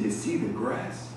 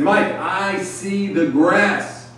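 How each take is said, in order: First: Low, slow, much softer echo; hushed, unimpressed retold question; quiet questioning echo. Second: High, very slow reply stating the obvious; slow, raised-pitch retold answer; drawn-out obvious answer. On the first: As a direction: drop low and soft, repeating it back. Veteran echoes the answer back. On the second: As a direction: stretch it out high, as if self-evident. Rookie answers veteran's question in retelling.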